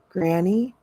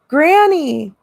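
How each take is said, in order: First: It is breathed out quietly. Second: It is called out loudly.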